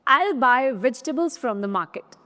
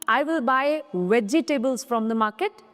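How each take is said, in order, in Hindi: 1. j ध्वनि के बाद का स्वर छोड़ा जाता है। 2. j ध्वनि के बाद का स्वर पूरा बोला जाता है। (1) "जैसे कि" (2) "ना कि"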